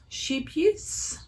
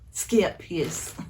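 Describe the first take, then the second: First: The word begins with an sh sound. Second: The word begins with an sk sound. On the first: The speaker calls it wrong. "You would all probably know it as sheep use" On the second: The speaker calls it right. "I think it's more like skip"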